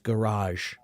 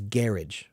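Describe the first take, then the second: First: It is said the French way. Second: It is said the British way. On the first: "the French pronunciation is garage" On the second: "but they pronounce it as garage"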